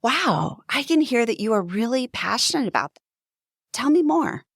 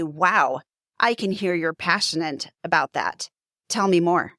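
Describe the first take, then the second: First: Higher and faster, eager to hear more; bright invitation to keep talking; curious and engaged. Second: Lower, flat and uninterested; disengaged, going through the motions; closed-off. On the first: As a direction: lean forward and sound genuinely interested. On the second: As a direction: say it arms crossed, leaning back into the couch. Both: Shown as a demonstration. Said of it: "Do you hear the difference?".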